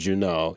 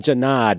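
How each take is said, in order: First: The surname is said in a French style. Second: The surname is said in a plain, unfrenched way. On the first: This is a fancier, adopted name. "something fancier" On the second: This is the family's original name. "You're a Janad"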